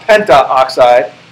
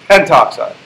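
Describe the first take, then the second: First: An 'a' vowel is heard before 'oxide'. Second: No vowel is heard before 'oxide'. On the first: The speaker calls it wrong. "So it's not pentaoxide" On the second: The speaker calls it right. "it's pentoxide. See how that kind of flows off your tongue a little better?"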